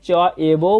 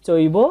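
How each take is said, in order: First: The two words are said separately, ca eva. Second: The two words are merged into one, caiva. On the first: "চ এবো বলতে পারি" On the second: "আবার চৈব বলতে পারি"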